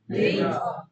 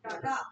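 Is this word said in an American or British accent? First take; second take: British; American. First: It is said in a British accent. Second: It is said in an American accent.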